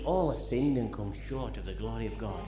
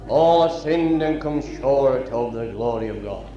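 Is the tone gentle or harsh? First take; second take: gentle; harsh. First: It is said in a gentle, compassionate tone. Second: It is said in a harsh, condemning tone. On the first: The listeners are being addressed with compassion. The speaker calls it right. "he doesn't say it in that tone of voice. He says" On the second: The listeners are being condemned. The speaker calls it wrong. "You're all condemned. You're all going to hell"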